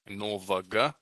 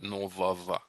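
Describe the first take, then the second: First: The ending's consonant is a hard g sound. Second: The ending's consonant is a v sound. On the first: The speaker calls it wrong. "So not novaga" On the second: The speaker calls it right. "but novava"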